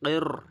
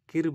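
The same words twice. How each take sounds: First: The r is pronounced heavy and full. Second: The r is pronounced light and thin. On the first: The speaker calls it right. "কির পড়তে হবে" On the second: The speaker calls it wrong. "কির বলবেন না"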